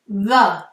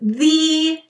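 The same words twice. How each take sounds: First: The vowel is a short, relaxed 'uh'. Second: The vowel is a long, stressed 'ee'. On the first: "We say a lazy uh sound" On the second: "you are naturally exaggerating the vowel sound, E"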